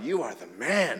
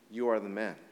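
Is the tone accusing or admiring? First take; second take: admiring; accusing. First: It is said as casual admiring praise. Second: It is said as a serious accusation. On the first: The listener is being complimented. The speaker calls it wrong. "Not like, you are the man, not like that" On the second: The listener is the guilty one in the story. The speaker calls it right. "Like, you're that guy. You're the rich guy"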